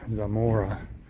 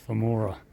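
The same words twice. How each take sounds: First: The name begins with a buzzing z sound. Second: The name begins with a soft th sound. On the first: "I call it Zamora" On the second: "like a T H"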